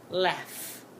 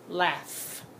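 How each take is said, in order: First: The word ends with an f sound. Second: The word ends with an f sound.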